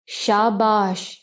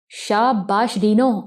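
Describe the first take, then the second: First: Slow, drawn-out mock praise; a lightly voiced sarcastic villain. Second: Slow, stretched cheerful shabash; a hint of delighted chirping; chirpy praise. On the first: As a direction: stretch the praise out to sneer. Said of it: "طنز بھری آواز". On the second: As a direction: gloat happily over her trick. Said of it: "سمت خان چہک کر بولا".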